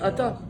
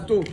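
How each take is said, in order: First: The word ends with an a vowel. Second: The word ends with an o vowel. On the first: This is how we pronounce it. "Nous, on dit Ata" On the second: "ils prononcent le Patar et le Kamat différemment. Ils disent Boruch Ato"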